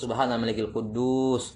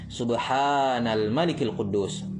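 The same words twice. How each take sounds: First: The vowel in quddus is stretched long. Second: The vowel in subhanal is stretched long. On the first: The speaker calls it wrong. "Bukan seperti itu ya" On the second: The speaker calls it right. "huruf ha-nya dibaca mat untuk yang ketiga"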